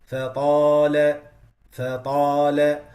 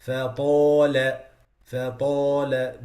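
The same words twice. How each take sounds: First: Slow, louder Fatala with an open alif; correct Fatala. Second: Slow Fatala with the alif rounded; wrong rounded Fatala. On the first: Teacher showing students the right Fatala. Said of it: "It has to be". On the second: Teacher showing students a wrong rounded Fatala. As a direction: close the lips on the alif of Fatala. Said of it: "These are wrong pronunciations". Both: Shown as a demonstration.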